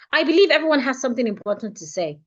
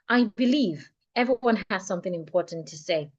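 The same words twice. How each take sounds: First: The sentence is spoken at a much faster pace. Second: The sentence is spoken at a comfortable, moderate pace. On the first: "I would say it fifty percent faster" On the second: "at a pace that I feel is more comfortable to me"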